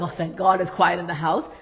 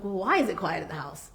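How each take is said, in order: First: Relieved. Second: Said in the usual way. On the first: Shown as a demonstration. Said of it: "Don't just be like".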